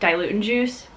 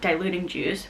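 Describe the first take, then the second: First: It is said in an imitated Scottish accent. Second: It is said in the speaker's plain accent.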